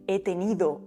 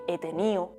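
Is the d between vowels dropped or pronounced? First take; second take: pronounced; dropped. First: The d between the last vowels is pronounced. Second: The d between the last vowels is dropped.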